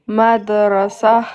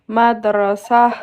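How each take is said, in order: Both takes have the same delivery.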